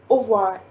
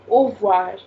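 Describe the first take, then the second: First: The r sound is left out completely. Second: The r sound is left out completely.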